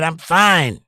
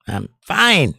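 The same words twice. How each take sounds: First: Said in the usual way. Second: A light hint of a Bill Clinton drawl; host lightly voicing Bill Clinton for chat, mock reassuring; Bill Clinton impression. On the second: Shown as a demonstration. Host joking to chat, a hint of Clinton reassurance. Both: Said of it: "I learned that from Bill Clinton".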